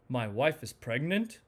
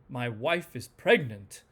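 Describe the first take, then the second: First: It sounds excited, with pitch going up then down. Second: It sounds very excited, with stronger pitch movement. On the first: The news is happy and exciting. "enthusiasm... it goes up and down" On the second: The news is thrilling. "strong enthusiasm"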